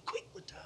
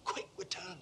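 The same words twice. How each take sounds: First: High, breathless whisper of quick return; a whispered repeat; whispered echo. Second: Said in the usual way. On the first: Shown as a demonstration. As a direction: hiss the echo mockingly.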